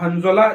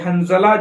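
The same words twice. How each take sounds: First: The middle consonant is an emphatic z sound. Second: The middle consonant is a plain z sound. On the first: It is the Arabic name of the companion. "हंज़ला जो है अरबी अल्फाज है" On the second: It is the Urdu word. "हंज़ला जो है उर्दू अल्फाज है"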